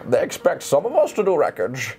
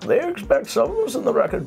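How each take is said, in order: First: The put-on voice sounds fairly clear. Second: The put-on voice sounds more muffled. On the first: "We're gonna start doing the voice" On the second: "He's gonna be more muffled"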